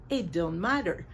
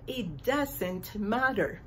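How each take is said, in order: First: It don't matter said with a single clipped don't; one-syllable don't. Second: Doesn't with both syllables said clearly; two-syllable doesn't. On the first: Teacher quoting the lyric's grammar error. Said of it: "Por eso puso". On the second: Teacher showing how to say doesn't properly. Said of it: "requiere dos sílabas". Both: Shown as a demonstration.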